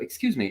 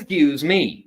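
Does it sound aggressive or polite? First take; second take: polite; aggressive. First: It is said in a plain, polite way. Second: It is said in an aggressive, sarcastic way.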